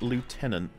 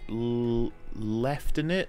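First: The word begins with a 'loo' sound. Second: The word begins with a 'left' sound. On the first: This is the non-British way of saying it. "not lieutenant" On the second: This is the British way of saying it. "why do Brits say leftenant"

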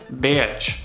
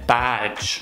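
First: The vowel sounds like 'ay'. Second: The vowel is an open 'a'. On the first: The speaker calls it wrong. "русские ... говорят beige" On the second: The speaker calls it right. "просто сказать badge, открытый рот"

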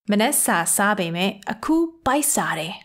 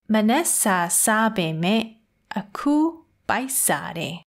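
First: It is said a little faster. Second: It is said at a normal pace.

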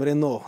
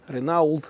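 First: The word ends in an 'o' with nothing after. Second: The word ends with audible 'ault' sounds. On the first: This is how it is actually pronounced. "произносим Рено" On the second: This is how it looks when read letter by letter. "когда читаем Ренаулт"

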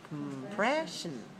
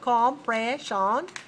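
First: The first and last syllables are said weakly. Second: The first and last syllables are said strongly. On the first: The speaker calls it right. "but compression. First and last syllable are very weak" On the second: The speaker calls it wrong. "not compression"

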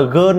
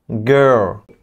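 First: The word ends with an n sound. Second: The word ends with an English l sound. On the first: The speaker calls it wrong. "các bạn có thấy phát âm là gơn nó có sướng không?" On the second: The speaker calls it right. "khi mà phát âm là girl thì nghe hay không"

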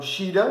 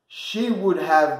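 First: Would have shrinks to a short da sound. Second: Would have is said in full.

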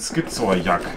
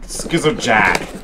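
First: It is said with a German accent. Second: It is said with an American accent.

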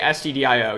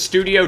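First: It is said as separate spelled-out letters. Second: It is said as one word, studio. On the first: "usually people, I think, just say STDIO" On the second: "I sometimes pronounce this as studio just to bug people"

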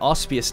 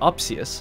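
First: The s sound comes before the p sound. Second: The s sound comes after the p sound. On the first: The speaker calls it wrong. "I was saying it wrong for the first couple episodes" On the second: The speaker calls it right. "His name was Opsius"

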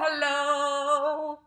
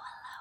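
First: It is said loudly. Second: It is said quietly.

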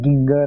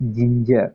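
First: The word begins with a hard g sound. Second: The word begins with a soft j sound. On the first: The speaker calls it wrong. "ginger nahi" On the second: The speaker calls it right. "So you people have to pronounce it as ginger"

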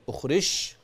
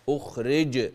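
First: The last consonant sounds like sh. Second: The last consonant is a clear j. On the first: The speaker calls it wrong. "لا" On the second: The speaker calls it right. "أخلي بالي من صوت الجيم"

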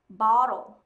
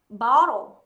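No difference in how they are said.

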